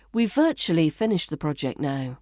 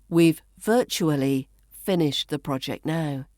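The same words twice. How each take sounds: First: Connected reading with "virtually" as VUR-chuh-lee; "virtually" shortened, flowing straight on; reduced pronunciation. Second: Careful, spaced reading with "virtually" as VUR-choo-uh-lee; "virtually" carefully said in full; full pronunciation. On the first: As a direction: run it together, "virtually" in three syllables. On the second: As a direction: give "virtually" all four syllables, pausing either side. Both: Shown as a demonstration. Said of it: "becomes virtually".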